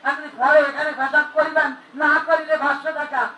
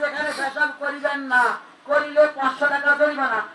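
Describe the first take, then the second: First: The pause comes after 'করিবেন'. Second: The pause comes after 'না'.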